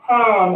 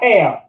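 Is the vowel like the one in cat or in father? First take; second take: father; cat. First: The vowel is an open ah, as in father. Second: The vowel is a flat a, as in cat. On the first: The speaker calls it right. "you would pronounce this as ham" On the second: The speaker calls it wrong. "and not ham"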